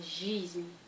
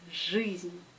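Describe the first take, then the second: First: The vowel is a soft 'ee' sound. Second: The vowel is a hard 'ui' sound. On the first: The speaker calls it wrong. "pas жизнь" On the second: The speaker calls it right. "I se prononce U"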